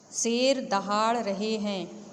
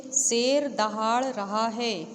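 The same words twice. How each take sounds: First: Said in the usual way. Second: शेर stressed, the whole sentence शेर दहाड़ रहा है read slowly; slow example reading. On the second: Shown as a demonstration. Teacher showing the class the singular example, slow and stressed. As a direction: lean on शेर and draw the example out. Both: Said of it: "उदाहरण के लिए देखिए".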